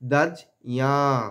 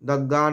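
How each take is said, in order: First: The middle cluster sounds like j followed by y. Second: The middle cluster sounds like a doubled g. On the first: The speaker calls it right. "দয়ের পরে বর্গীর জয় নিলাম ওটা বর্গীর জয়ের সঙ্গে ইও যুক্ত" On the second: The speaker calls it wrong. "দগ্গা এরকম উচ্চারণ করব না"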